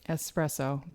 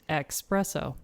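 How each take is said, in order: First: It is said with an s sound: espresso. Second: It is said with an x sound: expresso. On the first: The speaker calls it right. "Keep those Italians happy" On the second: The speaker calls it wrong. "it's normally mispronounced with the X"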